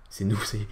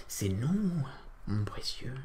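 First: Said in the usual way. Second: Creepy creature whisper; Gollum voice. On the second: Pretend. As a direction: hiss it like Gollum.

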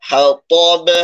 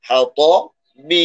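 First: হ্যাঁ, ত louder, বে a short echoing bounce of b; qalqalah on ba. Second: হ্যাঁ, ত, then বি with its "i" sounded; full final vowel. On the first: Teacher shows stopping on ba, বে as bounced b. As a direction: drop the vowel and bounce বে after a heavy ত. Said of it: "এখানে বা কলকলা হবে". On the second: Teacher shows the written form, বি keeping its vowel. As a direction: say বি separately with a clear i vowel. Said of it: "বি আর থাকবে না". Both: Shown as a demonstration.

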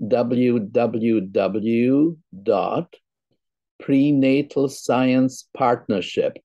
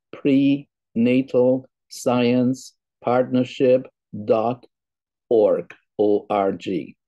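First: Slow, careful dictation of a web address; slow and deliberate for listeners to note down; saying it slowly. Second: Word by word, very slow, with gaps; slow, separated words for careful note-taking; saying it slowly. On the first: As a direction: read it out slowly, phrase by phrase. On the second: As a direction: spell out the address at dictation speed. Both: Real, not acted. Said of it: "I will say it slowly".

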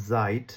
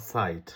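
First: জাইট with a buzzing z, "zait". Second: সাইট with a voiceless s, "sait"; sharp S sound. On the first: Teacher contrasting two German words, S as Z. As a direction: start জাইট on a voiced z. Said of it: "এস এর উচ্চারণ হচ্ছে". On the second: Teacher giving the contrasting word, sharp S sound. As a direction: start সাইট on a hissed s, no buzz. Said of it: "অথবা সাইট". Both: Shown as a demonstration.

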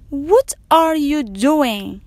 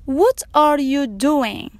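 The two takes are said the same way.

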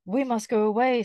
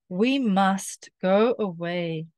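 First: Said in the usual way. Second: Very slow, word by word; deliberate slow-motion line; slow reading. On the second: Shown as a demonstration. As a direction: read it slowly for a learner.

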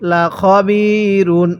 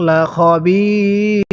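First: "লা খবিরুন" recited slowly with the final un sounded; continuing form. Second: "লা খবির" with a very long held i, closing on r; pausal stop form. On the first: Teacher spelling out the word before the pause rule, "লা খবিরুন" with final un voiced. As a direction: keep the ending on "লা খবিরুন". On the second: Teacher showing how to read at a stop, "লা খবির" long and closed on r. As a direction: stretch "লা খবির" and drop the final un. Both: Shown as a demonstration. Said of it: "ওয়াকফ করলে কিভাবে পড়ব".

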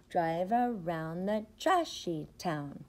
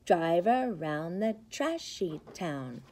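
Both takes have the same delivery.

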